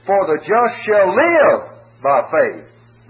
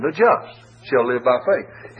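First: "live" held long and louder, slow delivery; stress on shall live. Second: The word "just" leaned on, rest slower; preacher hits "just" slowly; stress on just. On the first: Preacher to congregation, weight on "shall live". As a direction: drive home "shall live" slowly. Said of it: "the emphasis is upon "shall live". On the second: Preacher to congregation, stress on "just". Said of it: "the emphasis of, is upon the just". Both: Shown as a demonstration.

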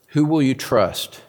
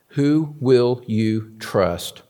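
First: Said in the usual way. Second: Each word slowly set apart; half-speed, weighty repeat of the question; slow, deliberate question. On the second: Real, not acted. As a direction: draw out WHO WILL YOU TRUST, word by word.

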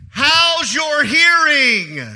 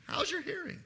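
First: Slow, loud, higher-pitched shout; loud demonstration. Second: Tiny, high, hushed voice; very quiet demonstration. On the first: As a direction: shout it slowly, as if to someone hard of hearing. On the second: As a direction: ask it very softly, pitched high. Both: Shown as a demonstration. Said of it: "let me say it like this".

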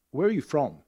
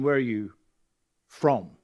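First: Said in the usual way. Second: "Where are you from?" with a weighted, probing fall; loaded question. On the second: Shown as a demonstration. To the congregation, showing the pointed version, probing. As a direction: lean on "Where", implying you're not from here. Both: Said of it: "if you can hear the difference".

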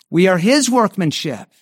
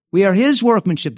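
First: We are his workmanship dengan kata his ditekan, nada turun; stress on his. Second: His ditekan keras dan lebih tinggi; stress on his. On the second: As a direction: beri tekanan penuh pada his lalu turun. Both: Shown as a demonstration. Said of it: "The emphasis there on the work is on the word his".

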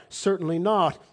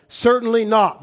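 First: Said in the usual way. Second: Much higher and louder, hammered down; emphatic shout. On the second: Shown as a demonstration. Preacher answering his own question to the congregation, emphatic shout. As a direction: bark the answer out with finality.

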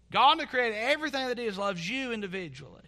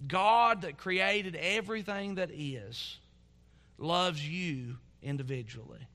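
First: Higher-pitched, in one unbroken sweep; emphatic restatement. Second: Slow, weighty declaration. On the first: Preacher driving home God's love to congregation, emphatic and raised. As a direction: lift "God that created everything" high and run straight through to "individually". Same line repeated with more force. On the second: Preacher impressing God's personal love on congregation, slow and weighty. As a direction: let "God that created everything that is" stretch out, then drop gently. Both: Real, not acted.

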